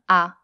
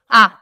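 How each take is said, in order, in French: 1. Le son est prononcé à volume normal. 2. Le son est prononcé très fort. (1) "avec une voix normale" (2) "encore plus fort"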